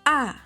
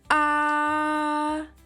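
First: The vowel sound is short. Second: The vowel sound is held long.

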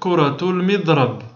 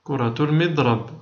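First: The last word ends in a bare consonant. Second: The last word ends in a bare consonant.

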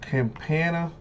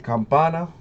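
First: The name is said with an English accent. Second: The name is said with a Spanish accent. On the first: The speaker calls it wrong. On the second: The speaker calls it right.

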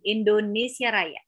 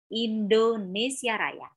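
First: The vowels are slurred and unclear. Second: The vowels are opened and articulated clearly. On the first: The speaker calls it wrong. "ada juga yang masih menyampaikan" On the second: The speaker calls it right.

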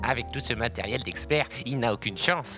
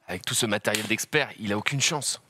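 First: It is said in an exaggerated, clichéd way. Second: It is said in a more restrained way.

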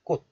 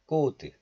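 First: The final consonant is held unreleased. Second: The final consonant is audibly released. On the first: The speaker calls it right. "just 꽃. Close the syllable" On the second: The speaker calls it wrong. "Not 꽃"

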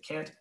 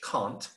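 First: It is said in an American accent. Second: It is said in a British accent. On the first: "but I'm American, so I say can't" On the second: "or in British"

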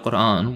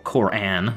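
First: The word is pronounced in a non-American way. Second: The word is pronounced in an American way.

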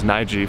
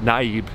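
First: The name ends with a v sound. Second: The name ends with a b sound. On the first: The speaker calls it right. "The correct pronunciation is Nijiv" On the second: The speaker calls it wrong. "an American would pronounce it Naib"

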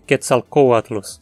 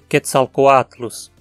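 First: The stress falls on the O syllable. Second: The stress falls on the A syllable. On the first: The speaker calls it wrong. "não faz sentido dizer Quetzalcoatlus, se o A é longo" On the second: The speaker calls it right. "A única pronúncia possível é Quetzalcoatlus"

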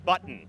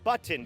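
First: The word is said loosely with reduced sounds. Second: Every sound is pronounced fully and crisply. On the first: "หรือจะแบบบ้านๆคือ" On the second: "แบบชัดเป๊ะเวอร์"

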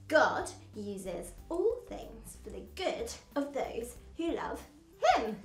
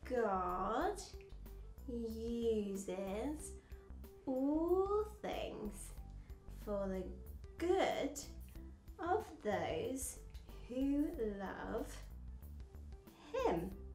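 First: It is said at a fast pace. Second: It is said at a slow pace.

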